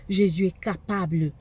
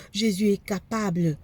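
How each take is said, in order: Both takes have the same delivery.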